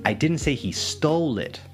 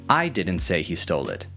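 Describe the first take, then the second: First: The word 'stole' carries the main stress. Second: The word 'I' carries the main stress. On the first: The person got it some other way. "so maybe clarifying that maybe they did pay or" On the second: Someone else said it. "emphasizing that it wasn't me who said it"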